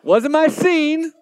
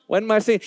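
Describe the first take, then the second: First: High, loud and slow, leaning on my; stretched, loud admission with a grin; emphatic mock confession. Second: Said in the usual way. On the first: Real, not acted. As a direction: drag it out like a big confession. Joking about Hobby Lobby.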